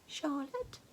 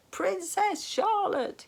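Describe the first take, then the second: First: Puzzled question. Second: Very high, loud, slow shout into the ear. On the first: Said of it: "clearly having trouble recalling". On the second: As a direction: bellow the name into a deaf king's ear. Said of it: "he shouted so loudly". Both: A narrator's reading.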